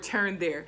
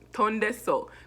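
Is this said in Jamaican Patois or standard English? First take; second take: standard English; Jamaican Patois. First: It is said in a standard English pronunciation. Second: It is said in a Jamaican Patois pronunciation.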